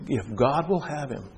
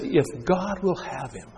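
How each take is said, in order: First: Slow, soft, sorrowful repeat; grieved echo. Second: Slow, soft, high sneer; sneering taunt. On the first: Preacher repeating the taunt, heartbroken and soft. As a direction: say it again with a broken heart. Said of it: "Breaks my heart". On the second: Crowd at the cross, soft scornful sneer. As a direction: let the scorn drip quietly. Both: Acted.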